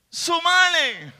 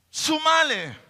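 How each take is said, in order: First: Sumale slow and louder, stretched; drawn-out sumale. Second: Said in the usual way. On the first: Shown as a demonstration. Preacher stresses sumale slowly and louder to the congregation. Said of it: "repeated exhortation, drawn out". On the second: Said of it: "repeated exhortation".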